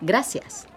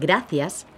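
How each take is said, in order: First: The c sounds like an s. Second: The c sounds like an English th. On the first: This is the Latin American accent. "Latin Americans pronounce the letter Z as an S" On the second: This is the accent of Spain. "where we would pronounce it th"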